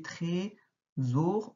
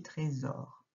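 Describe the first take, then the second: First: Trésor read slowly with a closed é, tré-sor; wrong reading. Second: Trésor said with an open è, trè-sor; open sound. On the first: Teacher shows a child the mistaken first reading, slowly. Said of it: "ce n'est pas comme ça qu'on le dit". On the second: Teacher shows a child the right open vowel. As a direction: say trésor with the first vowel opened. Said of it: "qu'on ouvre, on dit trésor". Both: Shown as a demonstration.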